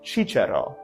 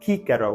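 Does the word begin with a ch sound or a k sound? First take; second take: ch; k. First: The word begins with a ch sound. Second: The word begins with a k sound. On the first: This is the church pronunciation. "with a ch sound" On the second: This is the classical pronunciation. "with a hard C sound"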